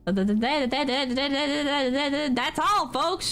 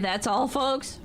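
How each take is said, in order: First: It is said in a Porky Pig voice. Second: It is said in a normal voice.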